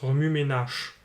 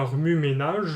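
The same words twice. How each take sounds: First: The final consonant is voiceless, like ch. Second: The final consonant is voiced, like j. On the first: The speaker calls it right. "on prononce" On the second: The speaker calls it wrong. "On ne prononce pas"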